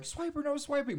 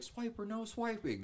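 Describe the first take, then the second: First: Put-on very high, loud child shout; kid voice. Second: High, slow cartoon girl voice; Dora voice. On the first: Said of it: "I'd be like". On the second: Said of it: "and she's like".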